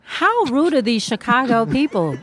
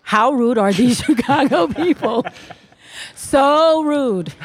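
First: Indignant. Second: Laughing. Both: Acted. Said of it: "Please rephrase".

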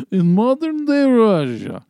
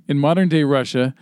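First: Slow, hammed-up Russian accent, much higher and louder; mock Russian trailer narrator, drawn out. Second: Said in the usual way. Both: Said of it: "do this in a Russian accent".

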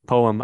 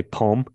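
First: Poem said in two beats, po-em; two-syllable poem. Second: Poem squeezed into one syllable, pome. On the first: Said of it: "poem has two syllables". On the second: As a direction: say poem as a single beat, pome. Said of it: "not the way I say it". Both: Shown as a demonstration.

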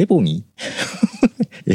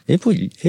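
First: "エボニー" with an n sound in the middle; trying out "エボニー" with ニー for the second half; self-corrected pronunciation. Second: "エボリー" with an r/l sound in the middle; trying out "エボリー" with リー for the second half; unsure English pronunciation. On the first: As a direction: say "エボニー" drawn out, ending in a ni sound. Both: Real, not acted. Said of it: "英語弱いのがバレバレだよ".

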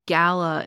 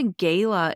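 First: "gala" said as GAL-uh, for a party; first vowel of "gala" as in cat; GAL-a pronunciation. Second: First vowel of "gala" as in day. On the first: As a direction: say "gala" with a short A. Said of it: "and a gala is a party". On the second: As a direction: say "gala" with a long AY. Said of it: "a gala is an apple". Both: Shown as a demonstration.

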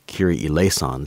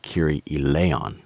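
First: Measured "Kyrie eleison", s heard before the last syllable; word-play demonstration. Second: Slow, careful "eleon" with no s; measured "Kyrie eleon", the s dropped; sound-alike demonstration. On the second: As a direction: say "eleon" slowly, gliding straight from "lay" into "on". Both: Shown as a demonstration. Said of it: "sounded like Kyrie eleon".

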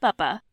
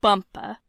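First: "buppa" with neither syllable stressed; two short, even, light beats on "buppa"; two unstressed syllables. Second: "bumpa" with the first syllable stressed; stressed then unstressed. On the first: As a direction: keep both halves of "buppa" equally unaccented. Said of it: "two unstressed syllables". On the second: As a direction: hit BUM, let "pa" drop away in "bumpa". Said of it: "stressed syllable followed by unstressed". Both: Shown as a demonstration.

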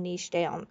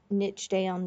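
First: Niche down with niche said as "neesh"; long ee and soft sh on niche, like leash; "neesh" pronunciation. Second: Niche down with niche said as "nitch"; short i and tch on niche, like pitch; "nitch" pronunciation. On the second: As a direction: say niche to rhyme with ditch. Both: Shown as a demonstration. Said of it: "how you pronounce it".

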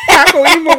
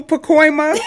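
First: Pacoima as PAH-koh-EE-muh, loud and high; split pronunciation. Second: Pacoima as puh-KOY-muh, higher; blended pronunciation. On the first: Host joking about visiting, Pacoima as loud PAH-koh-EE-muh. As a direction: switch Pacoima to "Paco-Eema". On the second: Host joking about visiting, Pacoima as puh-KOY-muh. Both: Shown as a demonstration. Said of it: "know how to pronounce it".

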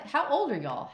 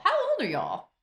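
First: Mock disbelief. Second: Put-on higher shocked repeat of How old are y'all; higher mock disbelief. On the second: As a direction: repeat it even more astonished. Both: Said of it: "you're like".

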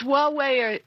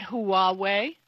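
First: Huawei said as WAH-way; correct Huawei pronunciation. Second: Huawei said as hoo-AH-way; wrong Huawei pronunciation. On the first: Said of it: "or the wrong way". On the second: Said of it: "It's definitely not Huawei". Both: Shown as a demonstration.

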